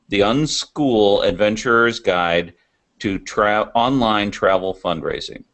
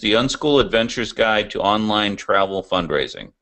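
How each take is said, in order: First: The title is said slowly and deliberately. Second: The title is said at normal speed.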